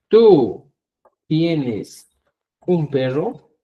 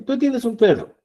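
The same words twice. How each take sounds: First: Slow spaced example. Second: Said in the usual way. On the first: Shown as a demonstration. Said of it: "Si tú quieres hablar de la segunda persona y decís". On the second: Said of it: "va a ser distinto".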